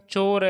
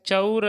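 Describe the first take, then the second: First: चोर with one long pure o; ओ की मात्रा. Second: चौर with a gliding 'a-u', 'cha-ur'; औ की मात्रा. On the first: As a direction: keep the vowel of चोर a steady 'oh', no glide. (चोर में सीधा लंबा 'ओ' बोलें) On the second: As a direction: open the vowel of चौर from a to u. (चौर को 'चउर' जैसा बोलें) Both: Shown as a demonstration. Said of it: "चौर और चोर में मात्रा का फर्क".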